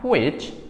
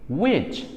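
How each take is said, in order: First: An h sound is breathed before the w. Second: No h sound is breathed before the w. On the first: The speaker calls it wrong. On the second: The speaker calls it right.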